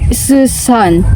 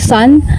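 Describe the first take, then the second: First: The first sound is repeated before the word. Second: The word is said smoothly in one go. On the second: "instead of saying son"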